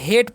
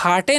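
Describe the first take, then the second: First: It has an 'ay' vowel and no final vowel. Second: It has an 'ar' vowel and a final 'e'. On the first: The speaker calls it right. "हेट पढ़ना है" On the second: The speaker calls it wrong. "इसे हार्टे नहीं पढ़ना है"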